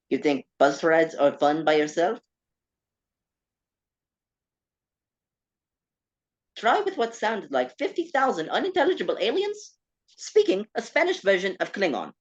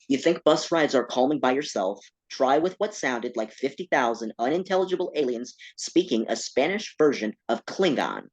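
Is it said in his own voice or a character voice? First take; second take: character voice; own voice. First: It is said in a put-on Roger the Alien voice. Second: It is said in his natural voice.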